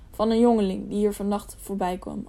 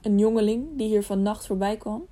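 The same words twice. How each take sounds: First: Said in the usual way. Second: Suspenseful asking, lifting at the end; tense, eager question. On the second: A narrator's reading. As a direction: echo the words as an eager question. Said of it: "vroeg vol spanning naar het scheen".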